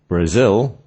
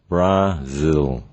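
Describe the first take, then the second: First: The stress is on the second syllable. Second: The stress is on the first syllable. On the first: The speaker calls it right. "the second part is said more slowly compared to the first one" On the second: The speaker calls it wrong. "rather than"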